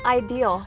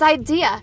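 First: The word ends with an added L sound. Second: The word ends without any L sound. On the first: The speaker calls it wrong. "Trinity says ideal" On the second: The speaker calls it right. "There's no L. It's idea"

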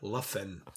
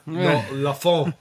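First: The last word ends in a 'fin' sound. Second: The last word ends in a 'fon' sound. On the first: The speaker calls it right. "we can now pronounce it right" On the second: The speaker calls it wrong. "Not La Fon, or whatever Dave called it"

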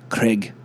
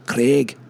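No difference in how they are said.

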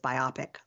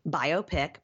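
First: It is said to rhyme with myopic. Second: It is said as bio plus pic. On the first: "like myopic" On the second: "Like a biography picture"

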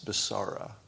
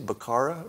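First: The C is said as a soft S sound. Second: The C is said as a hard K sound.

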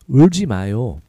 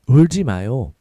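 Both takes have the same delivery.

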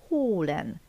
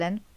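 First: The o vowel is said long. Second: The o vowel is said short. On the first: The speaker calls it right. "Mégis hosszan mondom" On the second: The speaker calls it wrong. "nem azt mondom"

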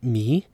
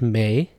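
First: The vowel is a plain 'ee' sound. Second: The vowel is a diphthong like 'ay'. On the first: This is the pronunciation used elsewhere. "and not me" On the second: This is the Afghan and Tajik pronunciation. "In Afghanistan and Tajikistan, this is pronounced may"

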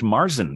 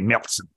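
First: The word is said with an English pronunciation. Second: The word is said with a German pronunciation.

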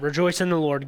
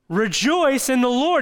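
First: It is said casually, quickly passed over. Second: It is said emphatically, with serious weight.

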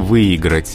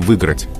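First: A full 'i' vowel is heard after 'vy'. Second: The 'i' after 'vy' is dropped entirely. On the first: This pronunciation is acceptable. "то есть с «и»" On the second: This is allowed only in fast casual speech. "в беглой речи не возбраняется говорить"

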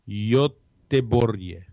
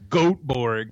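First: The name is said with Swedish pronunciation. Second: The name is said with American pronunciation. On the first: The speaker calls it right. "it's the Swedish pronunciation" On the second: The speaker calls it wrong. "the American pronunciation is"

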